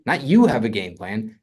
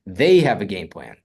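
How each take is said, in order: First: You stressed with a rise. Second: They punched, falling tune; stress on THEY. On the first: Teacher showing the wrong stress, you stressed. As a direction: lean on the word you as the wrong take. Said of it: "if I was to emphasize a word in the statement". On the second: Teacher showing the right stress, they stressed. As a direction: hit the word they hard. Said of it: "And the emphasis here ... is they". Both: Shown as a demonstration.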